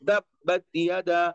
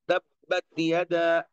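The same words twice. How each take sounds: First: The t is made with tongue tip at teeth. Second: The same.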